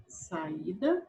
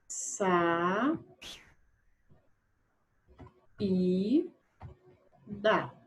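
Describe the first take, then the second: First: Said in the usual way. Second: "Sa-, i-, da" drawn out with long silences between; syllable by syllable. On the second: Shown as a demonstration. Teacher separating the next word, "Sa-, i-, da" syllable by syllable. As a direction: isolate each piece of "Sa-, i-, da". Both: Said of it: "vamos primeiro separar a sílaba".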